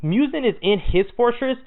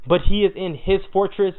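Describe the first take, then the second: First: Said in the usual way. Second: "he" leaned on, rest of "but he is in his fortress" even; "he" marked with slight weight before "in his fortress"; stress on he. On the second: Shown as a demonstration. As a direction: press the word "he" to set up the twist.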